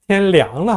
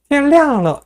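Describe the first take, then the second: First: The syllable liang carries a non-fourth tone. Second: The syllable liang carries the fourth tone. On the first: The weather has turned cold. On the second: Day has broken.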